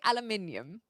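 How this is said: It is said the British way, with five syllables. "I would say aluminium. And I think that's British English"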